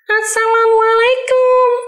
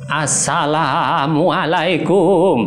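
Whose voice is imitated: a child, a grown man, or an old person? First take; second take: child; old person. First: It is said in a small child's voice. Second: It is said in a trembling old person's voice. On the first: "Suara anak kecil" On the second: "suara orang tua. ... Cukup menggetarkan suaranya"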